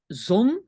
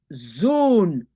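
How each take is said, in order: First: "zone" as Dutch zon, with a short o; short-vowel demo. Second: "zone" as Dutch zoon, the o held long; long-vowel demo. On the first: Teacher separates sun from son for learners, short-vowel demo. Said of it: "confondent zone et zone". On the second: Teacher separates son from sun for learners, long-vowel demo. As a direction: stretch the o of "zone" right out, as in zoon. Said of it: "Zone avec deux O". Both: Shown as a demonstration.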